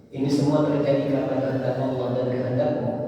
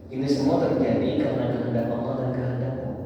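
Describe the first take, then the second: No difference in how they are said.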